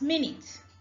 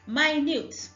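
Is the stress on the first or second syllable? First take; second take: first; second. First: The stress is on the first syllable. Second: The stress is on the second syllable. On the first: It refers to a unit of time. "When talking about time" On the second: It describes something extremely small. "when describing something extremely small"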